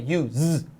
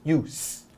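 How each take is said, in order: First: It is pronounced the way the verb sounds. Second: It is pronounced the way the noun sounds. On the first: The speaker calls it wrong. "It's not the verb, so we don't say use" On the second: The speaker calls it right. "it's use"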